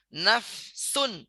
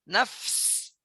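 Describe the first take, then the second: First: The word ends with an -un sound. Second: The word ends on a bare consonant.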